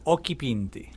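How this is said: The name is pronounced with Italian vowels. "so in Italian, it'd be Occhipinti"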